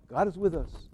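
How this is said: It is said in a casual, offhand way. The statement is treated as a trivial commonplace. The speaker calls it wrong. "We say it like it's some kind of thing"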